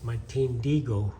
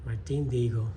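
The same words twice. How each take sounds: Both takes have the same delivery.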